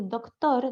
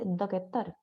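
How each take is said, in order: First: Said in the usual way. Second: "doctor" as dok-e-tor, slow and soft; soft slow "doctor" with an added e; inserted vowel. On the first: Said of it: "en vez de decir". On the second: Shown as a demonstration. Teacher contrasting the faulty doctor with the right one. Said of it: "en vez de decir doctor".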